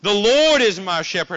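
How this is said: It is said with lively, excited emphasis. The words are something to be thrilled about. The speaker calls it right. "you want to place emphasis every single phrase"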